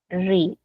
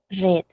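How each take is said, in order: First: It is pronounced as the present-tense form. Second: It is pronounced as the past-tense form. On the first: The reading happens now. "En tiempo presente es read" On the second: The reading already happened. "En pasado es read"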